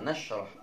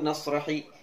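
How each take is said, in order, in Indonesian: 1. Kata ini tidak berakhir dengan vokal. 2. Kata ini berakhir dengan vokal 'i'. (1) "Ini dibaca sukun" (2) "jangan dibaca"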